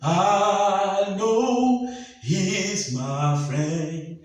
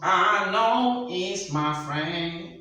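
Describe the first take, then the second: First: It is said with a rush of air. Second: It is said fully through the nose.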